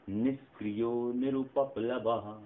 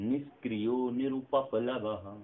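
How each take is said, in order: Both takes have the same delivery.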